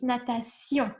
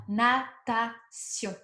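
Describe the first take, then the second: First: Natation with French nasal sion ending; correct French natation. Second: Natation drawn out, nasal sion at the end; slow French natation. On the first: Teacher corrects natation to the French sion ending. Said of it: "it's natation". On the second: Teacher models natation slowly for students. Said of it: "on, sion". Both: Shown as a demonstration.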